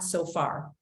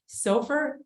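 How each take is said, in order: First: The word ends with a full 'far' sound. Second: The word rhymes with gopher, ending in 'fer'. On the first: The speaker calls it wrong. "it's not so far" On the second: The speaker calls it right. "SOFR is pronounced like gopher"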